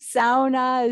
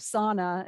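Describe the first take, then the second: First: The u vowel is pronounced, Finnish style. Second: The u vowel is dropped, American style. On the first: "as you say in Finland" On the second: "as we say in many parts of the United States"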